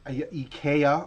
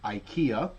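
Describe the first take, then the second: First: IKEA is pronounced in a non-American way. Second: IKEA is pronounced the American way.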